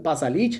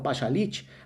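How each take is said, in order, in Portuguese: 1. O nome é falado do jeito local, familiar. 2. O nome é falado do jeito estrangeiro, pouco familiar.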